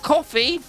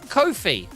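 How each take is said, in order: First: It sounds like the drink coffee. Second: It rhymes with the phrase 'no fee'. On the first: The speaker calls it wrong. "not coffee" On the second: The speaker calls it right. "It's Kofi"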